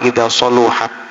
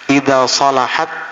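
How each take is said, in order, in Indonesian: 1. Suku kata tengah memiliki vokal 'u'. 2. Suku kata tengah memiliki vokal 'a'. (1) "boleh dibaca dhammah" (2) "boleh dibaca fathah"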